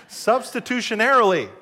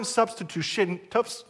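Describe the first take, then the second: First: "Substitutionarily" said whole and clean, a bit louder; finally got it. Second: "substitution-, toops-" broken off mid-word, tripping on the syllables; stumbling over a word. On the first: Pastor nailing the long word on his second try, relieved. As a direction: land "Substitutionarily" in one go, every syllable. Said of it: "there we go". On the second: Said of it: "I cannot say that word". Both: Real, not acted.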